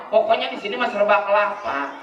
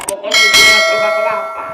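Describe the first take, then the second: First: Said in the usual way. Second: Loud, fast exasperated cry; exclaiming shout. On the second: Acted. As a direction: blurt it out at full volume.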